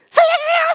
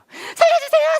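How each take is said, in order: First: It is shouted more loudly. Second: It is shouted less loudly.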